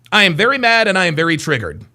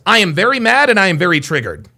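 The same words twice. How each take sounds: The two takes are said the same way.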